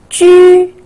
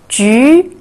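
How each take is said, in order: First: The pitch stays high and level. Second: The pitch rises from mid to high.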